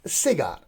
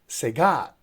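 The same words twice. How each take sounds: First: The stress is on the first syllable. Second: The stress is on the second syllable. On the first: The speaker calls it wrong. "it's not pronounced as cigar" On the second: The speaker calls it right. "So here the stress goes on the second syllable"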